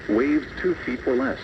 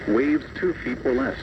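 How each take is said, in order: Both takes have the same delivery.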